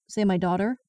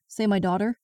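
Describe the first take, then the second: No difference in how they are said.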